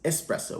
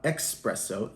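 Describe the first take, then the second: First: The word begins with a plain 's' sound. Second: The word begins with a 'ks' sound. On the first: The speaker calls it right. "it's espresso with an S" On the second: The speaker calls it wrong. "is not espresso"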